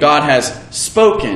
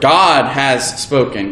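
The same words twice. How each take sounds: First: The stress falls on the word spoken. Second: The stress falls on the word God.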